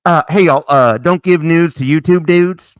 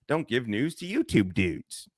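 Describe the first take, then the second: First: Loud, hammed-up proclamation; quoted movie line. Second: Said in the usual way. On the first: Host quoting Old School to his chat, loud and hammy. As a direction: announce it to the whole room. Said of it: "Remember Old School?". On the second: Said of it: "repeats the rule".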